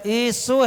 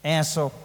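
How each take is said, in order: First: एसो with a clean short ए, a little higher; the right way, एसो; correct pronunciation. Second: ऐसो said with a broad ऐ vowel; the wrong way, ऐसो; common mispronunciation. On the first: Monk correcting the congregation's एसो, lightly stressed. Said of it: "ए और सा में वो की मात्रा". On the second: Monk showing how people wrongly say ऐसो, plainly. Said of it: "अपन क्या बोलते हैं?". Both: Shown as a demonstration.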